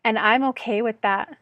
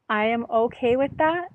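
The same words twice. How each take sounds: First: Said in the usual way. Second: Am pulled out and leaned on, gentle rise at the end; stress on am. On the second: Shown as a demonstration. Affirming to herself that she accepts it, stress on am. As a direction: say "I am" with full weight on am.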